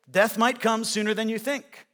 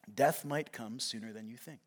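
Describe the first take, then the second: First: "Death might come sooner than you think" in full, raised voice; firm restatement. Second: Low, hushed warning; grave warning. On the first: Repeats warning after "it's true. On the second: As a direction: drop the voice for a sobering truth. Grave warning, later repeated firmly. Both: Real, not acted.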